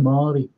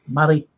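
First: The name is said in a standard accent. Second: The name is said in a Liverpool accent. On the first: This is how the name is usually said elsewhere. "instead of Mari" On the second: This is how locals say the name. "in Liverpool and Scouselands, we say Mari"

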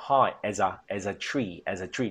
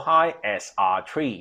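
First: The words as and a run together smoothly. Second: The words as and a are said separately. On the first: The speaker calls it right. "as 啊嗰个A A S A 黐埋一齐读" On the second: The speaker calls it wrong. "唔好聽"

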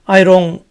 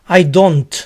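First: The final T is dropped; D sounds like R. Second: The final T is pronounced with a clear D.

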